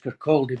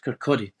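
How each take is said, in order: First: The L sound is pronounced in the word. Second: The L sound is left out of the word. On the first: The speaker calls it wrong. "everybody says Kirkcaldy because that's how it's spelled" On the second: The speaker calls it right. "it's a silent L. It's Kirkcaldy"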